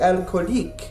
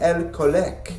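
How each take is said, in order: First: It is said with a Parisian French accent. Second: It is said with a Canadian French accent. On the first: "A Parisian might say" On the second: "a French-Canadian might say"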